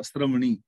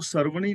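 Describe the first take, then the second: First: ਸ਼੍ਰਵਣੀ with s and r joined, sraṇi, no vowel between; careful correct reading, ਸ਼੍ਰਵਣੀ as one cluster sr; ਸ਼੍ਰਵਣੀ ਅੱਧੇ ਰਾਰੇ ਨਾਲ ਸਹੀ ਉਚਾਰਨ; half ra cluster. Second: ਸਰਵਣੀ said with a full vowel between s and r, sa-ra-vaṇi; the incorrect way, ਸਰਵਣੀ with an extra syllable; ਸਰਵਣੀ ਪੂਰੇ ਸ ਨਾਲ ਗਲਤ ਉਚਾਰਨ; wrong full-vowel reading. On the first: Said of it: "ਸੱਸੇ ਦੇ ਪੈਰ ਥੱਲੇ ਅੱਧਾ ਰਾਰਾ ਹੈ". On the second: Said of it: "ਇਹਨੂੰ ਸਰਵਣੀ ਨਹੀਂ ਪੜ੍ਹਨਾ". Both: Shown as a demonstration.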